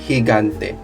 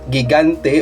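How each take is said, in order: First: Only the first G is sounded like an H. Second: Neither G is sounded like an H. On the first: The speaker calls it right. "but it's higante because we follow the, the rule here" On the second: The speaker calls it wrong. "not gigante"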